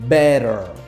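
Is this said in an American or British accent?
American. It is said in an American accent. "aux États-Unis, ça s'écoute comment"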